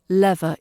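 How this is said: The first vowel is a short E. "It's a shorter E"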